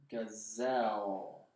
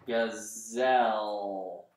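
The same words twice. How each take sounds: First: Gazelle drawn out slowly and quietly; quiet second sound-out; slow, soft sounding out. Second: Gazelle drawn out very slowly; teacher sounding out a word. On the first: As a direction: ease Gazelle out slowly, softer. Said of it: "And I'm hearing an L there". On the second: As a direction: stretch every sound of Gazelle. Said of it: "that sounds like a Z to me". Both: Shown as a demonstration.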